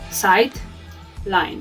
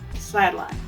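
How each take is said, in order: First: The d is released centrally before the l. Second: The d is released laterally into the l. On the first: The speaker calls it wrong. "We don't say side line" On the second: The speaker calls it right. "we say sideline"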